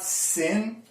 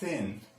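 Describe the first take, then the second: First: It begins with a hissing s sound. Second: It begins with a soft th sound. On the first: The speaker calls it wrong. "it's not sin" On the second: The speaker calls it right. "it's thin"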